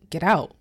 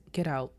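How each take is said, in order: First: Louder, firm command; loud order. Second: Said in the usual way. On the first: Retold or imitated. Pastor ordering Missus Reef out of the meeting, loudly. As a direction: make sure she hears it this time. Pastor repeats, she didn't hear.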